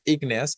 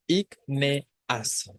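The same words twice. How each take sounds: First: Said in the usual way. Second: "ígneas" split as ÍG, NE, AS with pauses; syllable by syllable. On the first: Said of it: "cómo se pronuncia la palabra". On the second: Shown as a demonstration. Teacher showing why the word is esdrújula, syllable by syllable. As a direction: break "ígneas" into three separate syllables, E apart from A. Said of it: "La E y la A se separan".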